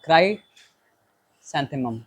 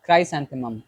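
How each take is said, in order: First: क्राइसैंथेमम drawn out slowly, syllable by syllable; careful tentative pronunciation. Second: Said in the usual way. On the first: Shown as a demonstration. Teacher unsure of क्राइसैंथेमम, slowly sounding out the word. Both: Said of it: "या फिर हम पूछ लेते हैं एक बार".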